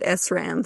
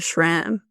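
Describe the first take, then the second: First: It starts with the letter name 'ess'. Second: It starts with a 'sh' sound. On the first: "my dad called it S RAM" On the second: "I do say it with an H"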